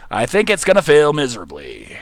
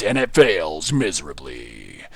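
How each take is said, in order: First: Said in the usual way. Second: Low, slow trailer announcer dooming the build; drawn-out dramatic trailer voice; movie trailer voice. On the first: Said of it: "the movie theater voice". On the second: Pretend. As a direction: announce the failure like a blockbuster teaser. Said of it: "I'm really loving the movie theater voice".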